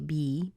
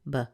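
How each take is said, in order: First: The syllable has a full ee vowel. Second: The syllable has a reduced schwa vowel. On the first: "there's a chance somebody might say be" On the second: "which gives us that schwa, that reduced sound"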